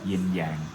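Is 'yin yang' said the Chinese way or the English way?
English. It is said with an English pronunciation. "In English, we pronounce it yin yang"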